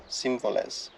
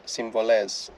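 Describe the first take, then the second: First: Σύμβολες with the stress on the first syllable Σύ, trailing off softer. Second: Συμβολές with the stress on the final -ές; stress on last syllable. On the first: Testing another stress on a Greek word, Σύμβολες stressed on Σύ, tailing off. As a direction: say Σύμβολες stressing Σύ, quieter at the end. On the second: Trying the accent options on an unfamiliar Greek word, συμβολές stressed on -ές. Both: Shown as a demonstration. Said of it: "I never know where the accent is".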